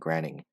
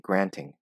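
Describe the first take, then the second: First: The middle consonant is a soft d-like flap. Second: The middle consonant is a clear t. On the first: "instead of saying granting" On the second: "I said it with the standard way, with T"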